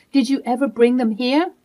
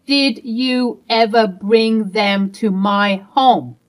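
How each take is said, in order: First: Said in the usual way. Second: Did you ever bring them to my home slow and louder, each word pressed; slow emphatic repeat. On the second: Acted. Wife repeating her demand to husband, slow and emphatic.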